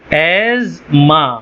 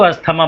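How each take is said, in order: First: It is said with a z sound before ma. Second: It is said with an s-t sound before ma. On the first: It is the form given in dictionaries. The speaker calls it right. "इसका असल तलफ़ुज़ क्या है? एज़मा" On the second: It is the everyday form most people understand. The speaker calls it wrong. "सब इसको अस्थमा बोलते हैं"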